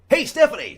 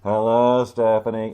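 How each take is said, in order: First: The greeting is loud and full of energy. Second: The greeting is flat and low in energy.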